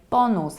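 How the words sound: It is said with a Polish accent. "pronounce it in a very Polish way"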